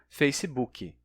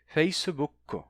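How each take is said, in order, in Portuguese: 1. Termina com a vogal 'ee' acrescentada. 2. Termina com a vogal 'oo' acrescentada. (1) "os brasileiros pronunciam Facebook como Facebook" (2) "mas os japoneses dizem Facebook"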